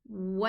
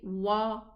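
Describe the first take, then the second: First: The lips spread sideways for the vowel. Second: The mouth opens wide for the vowel. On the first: The speaker calls it right. "open for the fatha sideways" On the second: The speaker calls it wrong. "Don't open up and down. Don't say wa"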